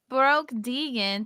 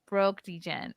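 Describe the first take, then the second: First: The name is said like 'Deegan', with a long 'ee'. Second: The name is said like the start of 'degenerate'. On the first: The speaker calls it wrong. "I said it wrong" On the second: The speaker calls it right. "Degenerate, like gambler"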